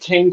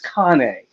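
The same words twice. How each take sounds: First: It is said like the English word cane. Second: It is said with an Italian pronunciation. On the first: The speaker calls it wrong. "my vet was like cane corso. I said no" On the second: The speaker calls it right. "it's cane. They're an Italian breed"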